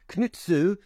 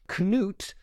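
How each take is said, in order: First: The name ends with an added vowel sound. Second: The name ends in a consonant sound. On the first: The speaker calls it wrong. "that's not his name, but that's how sometimes he's referred to" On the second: The speaker calls it right. "Knut is C-N-U-T"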